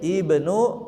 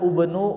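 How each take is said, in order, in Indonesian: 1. Kata ini diawali dengan vokal 'i'. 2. Kata ini diawali dengan vokal 'u'. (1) "tapi ibnu" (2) "tidak dibaca ubnu"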